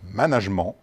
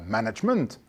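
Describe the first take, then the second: First: The word is pronounced the French way. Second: The word is pronounced the English way. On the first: The speaker calls it right. "la prononciation correcte en français ... mais bien management" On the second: The speaker calls it wrong. "n'est pas management à l'anglaise"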